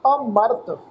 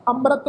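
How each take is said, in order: First: ਅਮਰਤ as a, slight break, then mart; prefix with slight pause. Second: ਅੰਮ੍ਰਿਤ said quickly as amrat, no break after a; run-together nasal form. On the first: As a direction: set off the opening ਅ in ਅਮਰਤ, saying a-mart. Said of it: "ਐੜੇ ਅੱਖਰ ਤੇ ਹਲਕਾ ਜਿਹਾ ਪੋਜ਼ ਲਗਾ ਕੇ". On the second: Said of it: "ਨਹੀਂ ਪੜ੍ਹਨਾ". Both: Shown as a demonstration.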